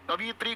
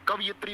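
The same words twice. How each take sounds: First: कवियत्री said as "kavi-yatri"; wrong form. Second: कवियत्री said as "kava-yitri"; correct form. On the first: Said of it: "गलत हो गया भाई". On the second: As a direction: say कवियत्री with a short a after व, then "yitri". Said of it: "होता है भाई". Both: Shown as a demonstration.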